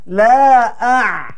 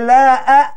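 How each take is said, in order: First: The ain is pressed deep in the throat. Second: The ain is weak, without throat pressure. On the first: The speaker calls it right. "Terasa pangkal lidah terturun ni. Tekan" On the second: The speaker calls it wrong. "tak betul lah"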